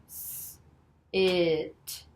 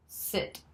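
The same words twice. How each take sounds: First: Long hissed 'S', then stretched 'It'; slow blend. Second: 'Sit' as one short quick word; said together fast. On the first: Teacher blending for Jim, slow 'S. It'. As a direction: draw out 'S. It' sound by sound. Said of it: "say 'em all together slowly". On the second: Teacher giving Jim the whole word, quick 'Sit'. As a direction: say 'Sit' briskly without stretching. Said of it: "Now all together fast". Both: Shown as a demonstration.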